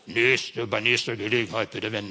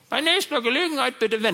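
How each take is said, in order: First: It imitates a male navigation voice, Peter. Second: It imitates a female navigation voice, Susanne.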